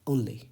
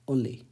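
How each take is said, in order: Both takes have the same delivery.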